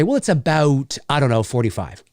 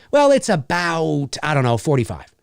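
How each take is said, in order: First: "about" with a tighter raised "ou"; Canadian raising on about. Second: "about" stretched with a wide open "ow"; exaggerated American vowel in about. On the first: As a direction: say about as a-BUH-oot. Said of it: "And we'd say". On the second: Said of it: "Whereas in the States". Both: Shown as a demonstration.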